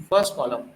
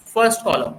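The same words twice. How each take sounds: First: Said in the usual way. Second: first column said louder as the model answer; teacher calls out first column firmly for students to repeat; prompting the answer. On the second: Shown as a demonstration. Teacher to class, leading the answer, a firm prompt. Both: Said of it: "पढ़ो इसको, नाम बोलो".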